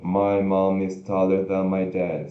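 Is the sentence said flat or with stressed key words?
flat. It is said flat, with no rises or falls. The speaker calls it wrong. "igual um robozinho, sem nenhum alto e baixo"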